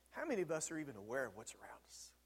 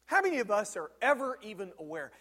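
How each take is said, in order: First: Breathy whisper of an inner thought, quick and soft. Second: Said in the usual way. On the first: Acted. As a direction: breathe it as if thinking to yourself. Inner thought, then repeated aloud.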